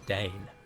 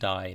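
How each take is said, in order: First: The vowel rhymes with 'rain'. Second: The vowel rhymes with 'fine'. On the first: It is read as a Dwarvish word. The speaker calls it right. "it is Dane" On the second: It is read as an Elvish word. The speaker calls it wrong. "so it's not Dine"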